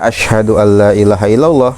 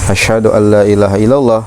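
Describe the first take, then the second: No difference in how they are said.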